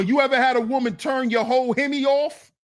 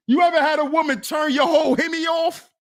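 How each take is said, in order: First: Said in the usual way. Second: Louder, faster shout of the question; shouted repeat. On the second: Shown as a demonstration. Shouting the question again to Zuma, loud and fast. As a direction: yell it out to the room, quicker. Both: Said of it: "repeat louder".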